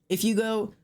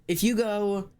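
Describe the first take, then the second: Both takes have the same delivery.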